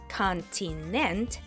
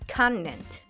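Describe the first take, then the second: First: The middle T is a strong, released T. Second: The middle T is a brief glottal stop. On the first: "instead of a strong T" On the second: "it sounds more like continent"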